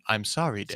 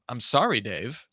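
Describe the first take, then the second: First: The voice is flat and monotone. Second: The voice has normal pitch variation. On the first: The speaker calls it right. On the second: The speaker calls it wrong.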